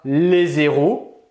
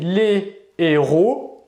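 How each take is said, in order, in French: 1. Un son z relie « les » à « héros ». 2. Aucun son z ne relie « les » à « héros ». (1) "et non pas les héros" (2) "Ici on va prononcer les héros"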